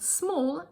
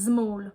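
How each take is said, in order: First: It begins with a voiceless S sound. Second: It begins with a voiced Z sound. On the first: The speaker calls it right. "rather than saying small" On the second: The speaker calls it wrong. "they might say small"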